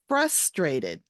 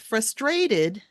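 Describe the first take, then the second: First: The stress is on the first syllable. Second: The stress is on a later syllable. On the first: The speaker calls it right. "The emphasis is on the first syllable" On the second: The speaker calls it wrong.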